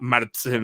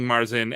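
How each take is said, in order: First: The word is said with a German pronunciation. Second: The word is said with an American pronunciation. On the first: "like the full German accent" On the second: "we're saying Marzen"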